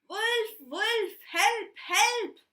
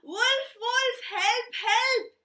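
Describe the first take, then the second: First: It is shouted loudly. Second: It is shouted even more loudly.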